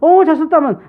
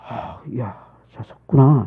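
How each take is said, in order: First: The praise sounds casual and perfunctory. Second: The praise sounds warm and heartfelt.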